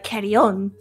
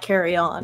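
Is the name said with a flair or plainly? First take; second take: flair; plain. First: The name is said with a foreign flair. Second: The name is said in a plain English way. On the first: This is how the name is supposed to sound. The speaker calls it right. "You're supposed to say it with the flair of like Carreon" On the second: This is how the family actually says it. The speaker calls it wrong. "I just say it like Carreon"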